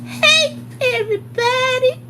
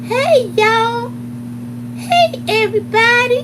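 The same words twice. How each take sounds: First: Very high, stretched sing-song greeting, rising at the end; imitating Lucretia again. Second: High, loud sing-song hello; imitating Lucretia's greeting. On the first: Teacher greets the whole room, very high and stretched. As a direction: coo the hello across the room. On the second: Teacher walks into the room greeting everyone, high valley voice. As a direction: call out to the room like a bubbly teacher. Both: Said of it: "That's how she used to walk in the room".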